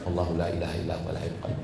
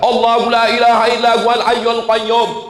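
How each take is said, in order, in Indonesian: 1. Diucapkan dengan pelan dan lirih. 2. Diucapkan dengan keras dan tegas. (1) "bukan yang pelan" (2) "yang dipakai kuat"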